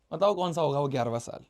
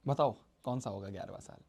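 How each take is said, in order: First: Said in the usual way. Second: Quiet repeat. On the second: Acted. Teacher repeats question to class.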